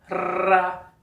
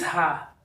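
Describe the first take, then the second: First: The r is a quick tapped sound. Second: The r is a strong guttural sound. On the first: "o som vibrante" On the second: "não fez Rá, como aqui em rato"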